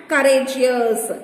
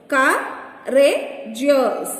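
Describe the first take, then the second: First: Said in the usual way. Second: "Courageous" slowly in three beats, Cou, ra, geous; slow, broken-up "Courageous" for counting; syllable by syllable. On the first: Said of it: "Divide each word". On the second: Shown as a demonstration. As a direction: pause between the syllables of "Courageous". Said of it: "Three syllables".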